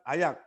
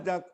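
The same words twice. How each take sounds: First: The J is not sounded as a 'j'. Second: The J is sounded as an ordinary 'j'. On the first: The speaker calls it right. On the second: The speaker calls it wrong.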